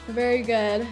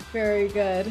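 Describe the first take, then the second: No difference in how they are said.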